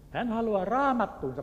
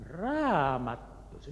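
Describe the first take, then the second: First: Raised, higher call of the word raamattuunsa; boys calling out. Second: "Raamattuunsa?" drawn out slowly, wondering; the pastor slowly repeating "Raamattuunsa?" in surprise; puzzled echo. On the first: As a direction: call out "raamattuunsa" eagerly to the pastor. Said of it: "pojat huusivat". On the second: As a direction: echo "Raamattuunsa" back in slow disbelief. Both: Retold or imitated.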